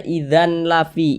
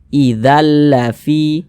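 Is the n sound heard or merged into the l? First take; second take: heard; merged. First: A separate n sound is heard before the l. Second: The n sound merges fully into the l. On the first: The speaker calls it wrong. "Jangan dibaca idzan lafi" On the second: The speaker calls it right. "bunyi tanwin ini masuk ke huruf lam, melebur dia ke huruf lam"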